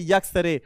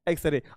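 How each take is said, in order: First: The word begins with a y sound. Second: The word begins with a plain vowel sound. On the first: The speaker calls it wrong. "तो ये sentence तुम्हारा गलत हो जाएगा" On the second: The speaker calls it right. "जो बच्चे इसका उच्चारण एक्स रे निकालेंगे"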